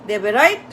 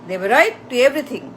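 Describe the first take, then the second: First: Said in the usual way. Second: Slowly, leaning hard on right; slow emphatic. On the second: Real, not acted. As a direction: drag out "right" and land on everything. Repeats phrase, then expands it. (ধীরে, "right" শব্দে জোর দিয়ে)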